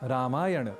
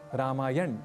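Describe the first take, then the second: First: The word ends with a vowel after the consonant. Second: The word ends on a bare consonant. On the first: The speaker calls it right. "ऐसा कहें" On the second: The speaker calls it wrong. "न कहें"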